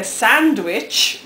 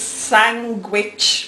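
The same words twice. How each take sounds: First: "sandwich" with a clear D. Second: "sandwich" said as "sangwich". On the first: Showing own way to viewers, "sandwich" with a D. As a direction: sound the D fully in "sandwich": sand-wich. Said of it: "sandwich with a D". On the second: Showing how Titch says it, "sandwich" as "sangwich". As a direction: put a hard G in "sandwich": sang-wich. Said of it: "She says sandwich with a G". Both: Shown as a demonstration.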